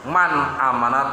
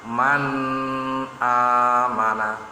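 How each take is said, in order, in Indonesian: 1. Bunyi n terputus mendadak. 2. Bunyi n ditahan dengan dengung sengau. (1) "bukannya dihentakan"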